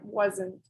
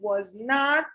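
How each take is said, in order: First: It is said as one contracted word. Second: It is said as two separate full words. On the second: "the long form"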